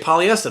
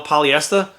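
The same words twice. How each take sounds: First: It is said without the final R sound. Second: It is said with the final R sound.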